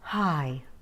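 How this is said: The word is spoken with lots of airy breath. The speaker calls it wrong. "I'm going to say it super breathy. Listen"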